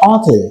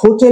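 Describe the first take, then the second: First: The word starts directly with a vowel sound. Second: The word starts with an audible h sound. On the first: "এই হোটেলের একটা উচ্চারণ কিন্তু অটেল" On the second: "আমরা হোটেল বলি"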